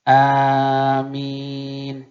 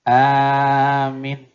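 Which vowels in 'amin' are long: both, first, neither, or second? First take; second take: both; first. First: Both vowels are drawn out long. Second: The first vowel is long, the second short. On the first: "panjang alif, panjang min" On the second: "dipanjang, pendek di belakang"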